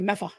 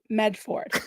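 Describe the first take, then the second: First: The r and d are dropped: Meffa. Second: Every sound is said in full: Medford. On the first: "they say Meffa" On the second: "instead of Medford"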